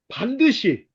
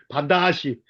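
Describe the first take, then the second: First: The second vowel is the standard 'eu' sound. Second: The second vowel is an 'a' sound. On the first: "서산 사람들은 반드시라고 안 하더라" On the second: "발음이 반다시"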